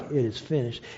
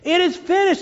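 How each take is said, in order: First: The phrase is said quietly and flatly. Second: The phrase is cried out loudly. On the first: It is a weak, resigned statement. The speaker calls it wrong. "it wasn't just like" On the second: It is a triumphant cry of victory. The speaker calls it right. "It was a cry"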